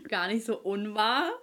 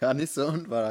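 First: Amused. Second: Higher, louder, amused echo; laughing agreement. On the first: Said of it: "Gar nicht so unwahr, hast du recht". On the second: Friend repeating her line, laughing louder. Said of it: "hast du recht". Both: Real, not acted.

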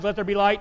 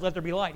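First: Louder, proclaiming like God creating light; louder, commanding creation; divine command. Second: Said in the usual way. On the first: Retold or imitated. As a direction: announce "Let there be light" as a booming command. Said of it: "and God said". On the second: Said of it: "Jesus was the one that said".

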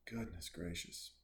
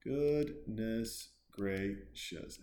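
First: Soft, low aside; hushed, low-key disbelief; muted exclamation. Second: Very slow, syllable by syllable; exaggeratedly slow disbelief; drawn-out exclamation. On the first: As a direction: say it quietly, almost to yourself. Same exclamation, then stretched out. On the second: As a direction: stretch out "Goodness gracious" with long pauses inside. Repeats it syllable by syllable. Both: Real, not acted.

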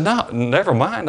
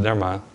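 First: High, slow echo of "never mind"; teasing disbelief, much higher and slower; mock incredulous echo. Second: Said in the usual way. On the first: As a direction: throw her "never mind" back at her, pitched up and drawn out. He echoes her refusal.

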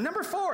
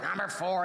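First: Very high, mock-eager order call; chipper young worker. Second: Said in the usual way. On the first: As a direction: imitate an eager kid calling out an order. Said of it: "he's all chipper". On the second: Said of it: "And they're like".

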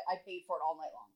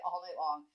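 First: Said in the usual way. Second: All night long, punched louder on All; exasperated echo of the line before; louder emphatic repeat. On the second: Real, not acted. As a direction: hit All and lift the whole phrase.

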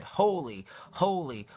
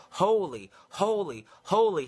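First: Said in the usual way. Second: High, loud ringing call of holy; seraphim calling. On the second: Acted. Seraphim calling back and forth, a high loud call. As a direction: call it out like an angel across heaven. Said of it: "are calling back and forth to one another".

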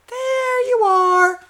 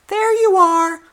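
First: Very high and drawn out, slow; slow mock squeak. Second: Much higher, sing-song mocking squeak; mock squeaky high voice. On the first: Mocking his partner's greeting, stretched high and slow. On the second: Mocking his partner's greeting in a high squeak. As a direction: parrot them in a silly high squeak.

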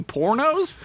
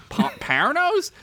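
First: Said in the usual way. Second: "pornos" said slowly, high and questioning; feigned unsure pronunciation. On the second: Acted. Narrator pretending not to know porn, awkwardly sounding out "pornos". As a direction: try out "pornos" like an unknown word, pitched way up. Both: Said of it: "Am I saying it right?".

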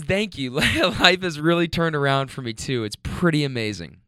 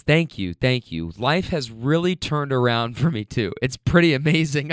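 First: Teary laugh through her words; emotional retelling. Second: Said in the usual way. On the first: Retold or imitated. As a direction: retell it again, moved, half laughing. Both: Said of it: "I'm gonna get emotional".

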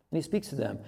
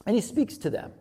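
First: Softer echo. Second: Said in the usual way. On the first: Shown as a demonstration. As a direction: repeat "And he speaks to them" softer, lower.

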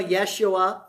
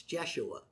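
First: Yeshua said with a Y sound; old pronunciation. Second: Jeshua said with a J sound; corrected pronunciation. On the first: A preacher recalling how he used to say Yeshua, with a Y. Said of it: "I always used to call it Yeshua". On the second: A preacher correcting the name to Jeshua, with a J. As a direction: say Jeshua, starting on a J. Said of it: "It's Jeshua". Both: Shown as a demonstration.

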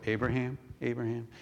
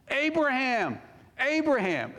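First: Said in the usual way. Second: Urgent calling out. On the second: Acted. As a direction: call it out to stop someone, pitched high. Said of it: "is that how he said it".

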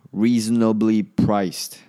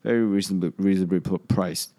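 First: Slow, loud and carefully spoken "Reasonably priced"; deliberate enunciation. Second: Said in the usual way. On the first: Real, not acted. Podcaster redoing a stumbled phrase, slowly and emphatically. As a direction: say "Reasonably priced" at half speed, louder, word by word.

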